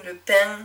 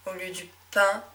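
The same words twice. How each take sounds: First: « pain » in the Médoc accent, ending in a sung nasal -ing: « paing »; accent médocain. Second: Said in the usual way. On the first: Shown as a demonstration. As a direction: say « pain » the Médoc way, adding a final ng. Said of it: "on a tendance à plutôt dire ing". (« pain » prononcé à la médocaine, avec un « ng » final)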